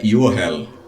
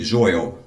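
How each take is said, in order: First: The name begins with a 'y' sound. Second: The name begins with a 'j' sound. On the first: This is the Hebrew form of the name. "E no hebraico é Yohel" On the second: This is the Portuguese form of the name. "meu nome"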